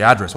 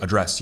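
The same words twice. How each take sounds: First: "address" as AD-dress; stress on first syllable. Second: "address" as uh-DRESS; weak first vowel, stressed DRESS in "address"; stress on second syllable. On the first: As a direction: punch AD at the start of "address". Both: Shown as a demonstration. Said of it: "put the emphasis on the second syllable".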